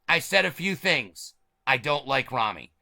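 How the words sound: There is a pause after "things". The speaker dislikes the person named.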